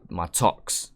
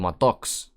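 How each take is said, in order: First: The word begins with a crisp T sound. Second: The word begins with a soft D sound. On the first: The speaker calls it wrong. "we would say it with a T" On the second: The speaker calls it right. "pronounce it like with a D almost"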